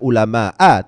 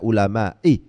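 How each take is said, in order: First: The word ends in an a vowel. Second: The word ends in an i vowel. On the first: "tidak ulama'a" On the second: "tidak ulama'i"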